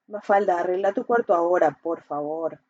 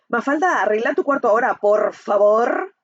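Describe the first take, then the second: First: It sounds calm and sincere. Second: It sounds harsh and aggressive.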